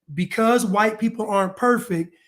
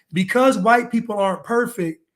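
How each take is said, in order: Both takes have the same delivery.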